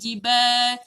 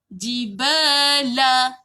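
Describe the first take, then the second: First: The word ends on the l sound. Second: The word ends with a vowel after the l. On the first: The reading stops on this word. "Tapi sebab kita matikan, dia bunyi jibal" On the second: The word is read without stopping on it. "La tu sebenarnya hidup. Dia ada baris"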